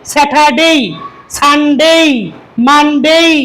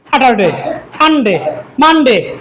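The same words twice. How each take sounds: First: The final vowel is a full 'ay' glide. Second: The final vowel is clipped, not fully glided. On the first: The speaker calls it right. "দেখেন তাহলে প্রত্যেকটিতে কিন্তু এই আছে" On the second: The speaker calls it wrong. "এখানে কিন্তু এর সাউন্ডটা পরিপূর্ণ সঠিকভাবে আসে না"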